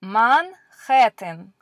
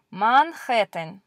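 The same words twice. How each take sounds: First: Manhattan said slowly with a throaty h; slow model of the Russian Manhattan; careful Russian reading. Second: Said in the usual way. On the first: Shown as a demonstration. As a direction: Manhattan drawn out as mahn-KHAT-tan. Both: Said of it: "this is a place in America".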